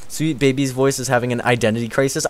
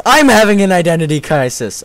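First: Said in the usual way. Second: High, loud cry on I'M; mock outburst. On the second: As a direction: exclaim it, hitting "I'm" hard. Exclaims the comment about self.

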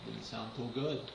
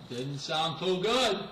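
First: Much softer, a low aside; muttered under his breath. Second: Slow, deliberate repeat at normal level; slow drawn-out comment. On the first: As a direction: mutter it to yourself. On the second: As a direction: stretch each word out mockingly. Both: Real, not acted. Repeats the line twice differently.

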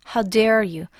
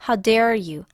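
No difference in how they are said.

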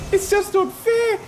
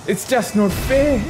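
First: Pitched-up whining complaint, much higher; higher mock whine. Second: Whiny pretend complaint; mock lament. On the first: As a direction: whine it like a hammed-up child. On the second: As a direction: sulk it out like a sore loser.

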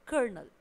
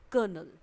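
First: कर्नल as "kərnəl", r sounded; कर्नल with a clear r. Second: कर्नल as "kənəl", r silent; कर्नल spoken with the r dropped; no r sound. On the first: (कर्नल, आर के साथ) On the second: (कर्नल बिना आर के) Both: Shown as a demonstration. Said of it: "आपको इसे pronounce करना है".

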